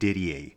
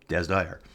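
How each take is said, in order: First: The name is read as one French-style name. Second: The name is said as two English words. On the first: The rider is taken to be French. The speaker calls it wrong. "I called him Didier. I thought he was a French rider" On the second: The rider is from the United States. The speaker calls it right. "First name Des"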